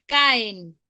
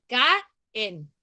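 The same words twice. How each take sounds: First: Said in the usual way. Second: "caen" slowly divided as ca - en; teacher breaking "caen" into ca-en; split into syllables. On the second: Shown as a demonstration. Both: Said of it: "La divido y tiene".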